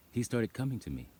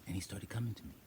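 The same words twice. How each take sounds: First: Said in the usual way. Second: Hushed, awed whisper. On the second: Real, not acted. Telling how the goat came to her, whispering. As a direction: breathe it out in wonder.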